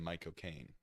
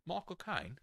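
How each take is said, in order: First: Said in the usual way. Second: High-pitched put-on Cockney accent; Michael Caine. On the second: Shown as a demonstration. Demonstrating the actor saying his own name, Cockney impression. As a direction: do a hammed-up Cockney film star. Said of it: "how you do a Michael Caine accent".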